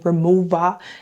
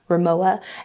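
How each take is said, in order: First: The middle consonant is sounded as a V. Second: The middle consonant is sounded as a W. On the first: The speaker calls it right. "the W is pronounced with a V, so you say Rimowa" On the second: The speaker calls it wrong. "and not Rimowa"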